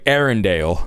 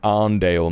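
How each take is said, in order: First: The name is said with three syllables. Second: The name is said with two syllables. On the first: It imitates someone else's mispronunciation. The speaker calls it wrong. "it's crazy how he pronounced that" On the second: It is the local way to say the name. The speaker calls it right. "It's the fucking Arndale, mate"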